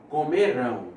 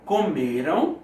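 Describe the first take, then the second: First: "comerão" with the weight on RÃO; stress on the last syllable. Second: "Comeram" with the weight on ME; stress on the middle syllable. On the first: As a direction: say "comerão" as co-me-RÃO, landing on the end. ("comerão" com a tônica na última, RÃO) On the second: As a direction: say "Comeram" as co-ME-ram, final syllable weak. ("Comeram" com a tônica na penúltima, ME) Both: Shown as a demonstration. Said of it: "a pronúncia também".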